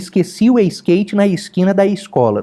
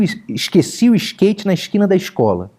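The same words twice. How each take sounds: First: The s sounds are smooth, with an added 'i'. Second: The s sounds are hushed, like 'sh'. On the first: The speaker is trying to sound serious. "ele faz um S liso que parece um quiabo. Aí coloca um I antes do S" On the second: The speaker is chatting casually. "ele chia que nem panela de pressão"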